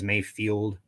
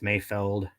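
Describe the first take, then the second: First: The second syllable sounds like 'field'. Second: The second syllable sounds like 'feld'. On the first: This is how most people say the name. "everybody says Mayfield" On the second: This is how the name is really said. "He says it's Mayfeld"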